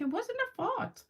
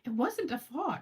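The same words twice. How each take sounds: First: It is said in a British accent. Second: It is said in a plain American accent.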